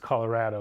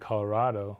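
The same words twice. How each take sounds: First: The third syllable has the vowel of 'add'. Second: The third syllable has the vowel of 'odd'. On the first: The speaker is a longtime local. "of course it's Colorado. That's how I've always said it" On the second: The speaker follows the Spanish pronunciation. "So it should be Colorado, like avocado"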